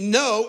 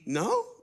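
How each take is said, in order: First: It is said in a short, dismissive way. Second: It is said with a surprised tone. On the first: A casual refusal. "no as in uh-uh" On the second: Surprise at hearing something new. "no as in, oh, really? I didn't know that"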